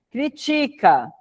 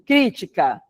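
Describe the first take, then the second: First: The stress is on the second syllable. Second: The stress is on the first syllable. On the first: "paroxítona" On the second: "Toda proparoxítona é acentuada"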